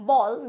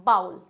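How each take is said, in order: First: Ball with one pure "o" vowel, loud; correct pronunciation. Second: Bowl with an "ow" glide, like "baul"; wrong pronunciation. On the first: Teacher correcting "bowl", loud ball as "bol". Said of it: "इसको बोलेंगे हम बॉल". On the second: Teacher rejecting the common mistake, bowl as "baul". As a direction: say bowl to rhyme with "howl". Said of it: "not bowl". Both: Shown as a demonstration.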